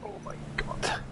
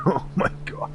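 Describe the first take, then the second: First: Breathless shocked whisper; stunned whisper. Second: Said in the usual way. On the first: Real, not acted. Exclaiming after a shock.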